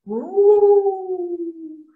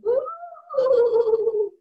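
First: Loud, long sustained ooh; Papa Ghost wail. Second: High-pitched ghostly woo; Mama Ghost wail. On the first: Papa Ghost left in the house, loud wail. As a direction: hold it like the father ghost. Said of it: "Papa Ghost going". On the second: Mama Ghost haunts the house, high wail. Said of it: "Mama Ghost going". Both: Retold or imitated.

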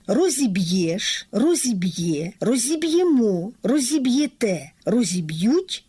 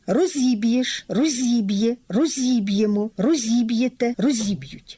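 First: Each form lands on its final vowel: "розіб'єш, розіб'є, розіб'ємо, розіб'єте, розіб'ють"; stress on the ending. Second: Each form peaks on its second syllable, зі: "розіб'єш, розіб'є, розіб'ємо, розіб'єте, розіб'ють"; stress on second syllable. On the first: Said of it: "на останньому звукові закінчення". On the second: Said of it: "на другому складі на звукові". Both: Shown as a demonstration.

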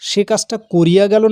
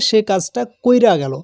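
First: "করিয়া" in three parts, ko-ri-ya; formal pronunciation. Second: "কইরা" as koi-ra, i ahead of the r; i moved forward. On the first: Teacher cites the form not used in casual talk, "করিয়া" as ko-ri-ya. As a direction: keep the i after the r in "করিয়া". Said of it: "শুদ্ধ ভাষায় কি বলি". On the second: Teacher shows pupils the shifted vowel, "কইরা" said koi-ra. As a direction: say "কইরা" in two parts, koi-ra. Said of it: "তার মানে হ্রস্বইটা". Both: Shown as a demonstration.

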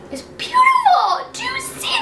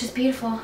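First: Real squeal of delight. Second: Said in the usual way. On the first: Real, not acted. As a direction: squeal "It's beautiful" in delight. Says it twice, second squealed.

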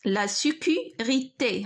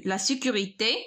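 First: Slow, broken into syllables: لا سيكوريتي; slow dictation. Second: Said in the usual way. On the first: Shown as a demonstration. Teacher writing the word out for students, slow syllable-by-syllable dictation.

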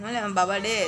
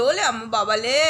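First: Softer, lower cooing; tender murmured pet talk. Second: Cooing pet talk. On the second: Cooing baby talk to dog. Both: Real, not acted.

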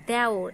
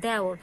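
First: Second দেওর with a tight "e", "de-or"; closed e. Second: দেওর said "dae-or"; open ae. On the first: Teacher showing what we don't say, closed e in দেওর. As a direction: keep the e of দেওর closed, as written. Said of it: "আমরা কিন্তু দেওর উচ্চারণ করি না". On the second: Teacher showing what we say, open ae in দেওর. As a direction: open the first vowel of দেওর wide. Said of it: "আমরা উচ্চারণ করি". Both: Shown as a demonstration.

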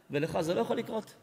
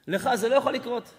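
First: Said in the usual way. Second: לא punched louder in "לך זה לא יכול לקרות"; stress on לא. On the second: Shown as a demonstration. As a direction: hit the word לא hard. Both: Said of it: "repeated with emphasis".

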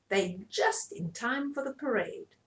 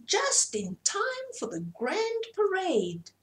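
First: Said in the usual way. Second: Very high, slow peacock call; grand peacock announcing the parade, high and slow; proud peacock. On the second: Acted. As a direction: sing it out high like a showy bird. Peacock voiced in story.

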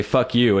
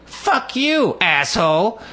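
First: Said in the usual way. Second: High mock scream of Fuck you; high retold yell of Fuck you, asshole. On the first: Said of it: "she hears her little friend say". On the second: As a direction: shriek it like the angry woman. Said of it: "and goes".

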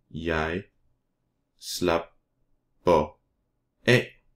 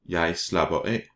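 First: "slapper af" broken into slap, per, af with long pauses; syllable by syllable. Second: Said in the usual way. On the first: Shown as a demonstration. Teacher models Danish verb for learners, syllable by syllable. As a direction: say "Jeg slapper af" very slowly, each syllable apart.

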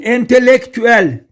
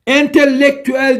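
First: Entelektüel with a short, single L. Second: Entelektüel with a long, doubled L after the first E's; wrong double L. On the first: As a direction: keep the first L of entelektüel brief. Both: Shown as a demonstration. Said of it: "Tek L ile".

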